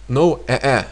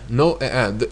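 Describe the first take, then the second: The two takes are said the same way.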